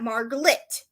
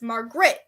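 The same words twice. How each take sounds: First: The middle part has an l sound, like glit. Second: The middle part has an r sound, like grit. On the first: The speaker calls it wrong. "not glit" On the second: The speaker calls it right. "It's grit"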